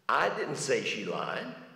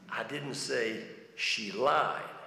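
First: The stress is on the word I. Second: The stress is on the word lied.

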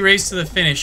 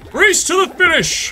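First: It is said in the speaker's normal voice. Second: It imitates the Smash Brothers announcer's voice.

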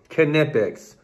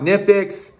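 First: The initial K is clearly sounded. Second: The initial K is silent. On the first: The speaker calls it right. "it is actually pronounced Knipex" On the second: The speaker calls it wrong. "It's not Knipex"

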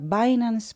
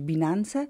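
First: The name is said with English pronunciation. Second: The name is said with Polish pronunciation. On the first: "po angielsku się nazywa" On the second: "po polsku można powiedzieć"

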